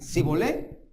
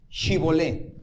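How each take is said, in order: First: The word begins with an 's' sound. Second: The word begins with an 'sh' sound. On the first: The speaker calls it wrong. "no podían pronunciarlo correctamente" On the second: The speaker calls it right. "pues di Shibolé"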